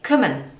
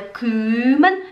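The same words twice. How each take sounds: First: The first vowel is said short and quick. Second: The first vowel is held long. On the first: The speaker calls it right. "é kümmern" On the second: The speaker calls it wrong. "Não é kümmern"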